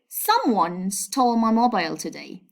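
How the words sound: The word someone carries the main stress. The focus is on who took the phone. "by stressing the subject, I mean someone"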